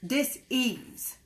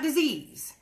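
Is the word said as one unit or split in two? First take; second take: split in two; one unit. First: The word is split into two parts. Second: The word is said as one unit. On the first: An energetic lack of ease. "when I say it that way, I'm saying D I S dash E A S E" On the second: A physical illness. "not disease"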